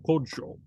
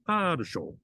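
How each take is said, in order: First: The first vowel is a short 'o' sound. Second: The first vowel is an open 'a' sound. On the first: The speaker calls it right. "It's kadsho. Okay, so kodsho" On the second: The speaker calls it wrong. "if it's stressed, then it would be kadasho"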